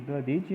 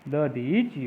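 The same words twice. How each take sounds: First: दधीचि with a short middle i, "da-dhi-chi"; teacher voicing दधीचि without lengthening; wrong pronunciation. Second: दधीचि with long "dhee"; drawn-out da-dheee-chi for दधीचि; correct pronunciation. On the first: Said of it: "नहीं होता है". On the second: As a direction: stretch the middle vowel of दधीचि slowly. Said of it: "होता है". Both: Shown as a demonstration.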